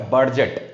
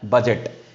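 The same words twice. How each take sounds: First: A clear D sound is heard before the G. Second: No separate D sound is heard before the G. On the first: The speaker calls it wrong. "It's not a budget. B U D bird, G E T jet" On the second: The speaker calls it right. "It's a budget. D के बाद G आया है"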